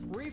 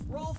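First: The name is said with a long 'ee' vowel. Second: The name is said with an 'o' and 'lf' sound.

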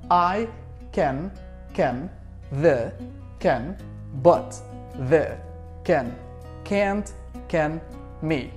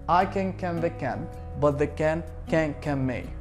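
First: The phrase is said at a slow pace. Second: The phrase is said at a medium pace.

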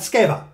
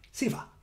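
First: The name begins with an 'sk' sound. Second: The name begins with a plain 's' sound. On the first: The speaker calls it wrong. "Not Skeva" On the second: The speaker calls it right.

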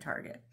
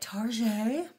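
First: The word has its plain, everyday pronunciation. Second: The word has an unusual, fancy-sounding pronunciation.

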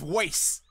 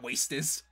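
First: The word is said as one syllable. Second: The word is said as two syllables. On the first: The speaker calls it right. "It's Waste" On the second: The speaker calls it wrong. "not Wastus"

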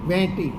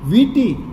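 First: The first vowel is a nasal ay sound. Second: The first vowel is a nasal ee sound. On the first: This is the regional dialect form. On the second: This is the standard form.

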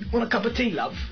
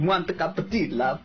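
First: It is spoken in a British accent. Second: It is spoken in an Italian accent. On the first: "British accent"

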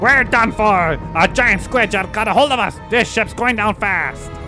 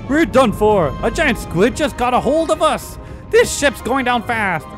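First: It is read in a put-on pirate voice. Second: It is read in the speaker's normal voice.

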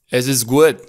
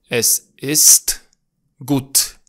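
First: Some consonants are softened or dropped. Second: Every consonant is clearly pronounced. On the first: This is how it is said in Austria. "În Austria, spre exemplu, regula asta nu prea se aplică cu strictețe" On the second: This is standard German. "În germana standard, de obicei, se aud toate consoanele din cuvinte"

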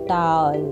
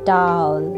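The two takes are said the same way.

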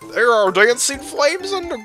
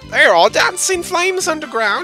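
First: It is said in a male-sounding voice. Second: It is said in a female-sounding voice.

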